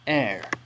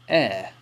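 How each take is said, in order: First: The R sound is strongly pronounced. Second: The R sound is subtle, barely pronounced. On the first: "while Americans might say air" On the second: "British people are more likely to say air"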